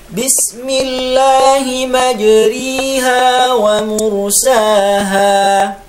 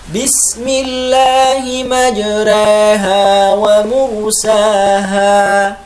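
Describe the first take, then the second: First: The vowel after r becomes a full i. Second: The vowel after r leans only slightly toward e. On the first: "imalah dibaca kasroh" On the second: "membaca harokat fathah sedikit miring, tidak sampai harokat imalah"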